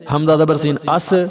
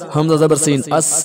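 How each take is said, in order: First: The final consonant bounces with a slight echo. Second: The final consonant is held still without echo. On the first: The speaker calls it wrong. "जरा थोड़ा सा हिलाकर पढ़ेंगे तो वो गलत होगा" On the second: The speaker calls it right. "ये दुरुस्त है"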